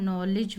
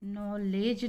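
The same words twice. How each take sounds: First: नॉलेज with a short 'i' in the second syllable; correct pronunciation. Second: नॉलेज with a long 'ay' in the second syllable; wrong pronunciation. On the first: Teacher corrects students, short second vowel. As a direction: say नॉलेज as 'no-lij'. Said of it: "सही उच्चारण". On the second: Teacher shows the mistaken reading, long second vowel. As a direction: say नॉलेज as 'no-layj'. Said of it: "नॉलेज नहीं होता है". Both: Shown as a demonstration.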